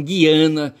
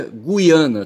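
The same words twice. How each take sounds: First: Guiana with silent U, gui-A-na; rejected Guiana. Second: Guiana with the U sounded, gu-i-A-na; correct Guiana. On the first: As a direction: say Guiana as "ghee-AH-na". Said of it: "E não Guiana". (Guiana sem pronunciar o U) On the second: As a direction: say Guiana as "goo-ee-AH-na". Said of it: "digo que se pronuncia Guiana". (Guiana com o U pronunciado) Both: Shown as a demonstration.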